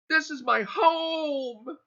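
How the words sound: The stress is on the word home.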